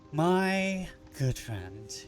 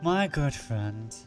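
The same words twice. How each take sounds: First: It is said in a put-on foreign accent. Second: It is said in the speaker's normal voice.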